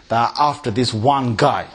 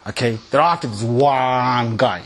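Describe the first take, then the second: First: Said in the usual way. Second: "after this one guy" slowed and leaned on; stressed repeat. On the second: Shown as a demonstration. Repeating the point to the audience, slow and emphatic. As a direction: drag out "after" to drive the point home.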